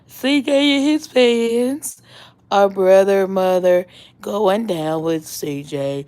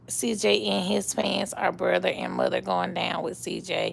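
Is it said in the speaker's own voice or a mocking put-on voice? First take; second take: put-on voice; own voice. First: It is said in a mocking put-on voice. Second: It is said in the speaker's own voice.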